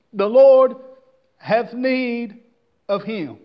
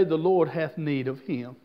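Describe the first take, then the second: First: The Lord punched loud, then hath need, of him set apart; phrase broken apart. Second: Said in the usual way. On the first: Shown as a demonstration. Preacher repeats phrase word by word.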